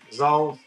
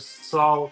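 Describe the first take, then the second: First: The word begins with a buzzing z sound. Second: The word begins with a hissing s sound. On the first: The speaker calls it wrong. "everyone calls it" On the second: The speaker calls it right. "No, Sol"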